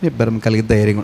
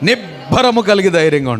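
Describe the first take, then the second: First: The phrase is said mildly, without force. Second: The phrase is said strongly, with force. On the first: The speaker calls it wrong. "అలా కాదు" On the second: The speaker calls it right. "ఇంకా బాగా స్ట్రాంగ్గా చెప్పాలి"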